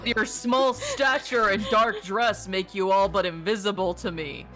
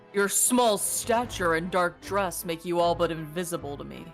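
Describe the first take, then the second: First: It is said at a louder volume. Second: It is said at a quieter volume.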